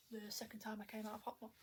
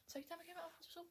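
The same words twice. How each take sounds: First: Said in the usual way. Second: High, quieter self-check on "Second time I came out of hospital?"; questioning herself. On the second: Real, not acted. Queries own words just said.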